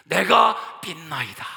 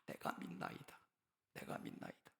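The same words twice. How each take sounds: First: Slow, loud anguished outcry; loud, slowed, pleading shout; father's desperate cry. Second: Whispered echo of the plea; whispered, fading plea; whispered cry. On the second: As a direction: breathe it out, unvoiced. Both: Acted. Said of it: "어떤 소리를 질렀습니까?".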